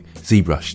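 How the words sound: The name is said the American way. "ZBrush to Americans of course"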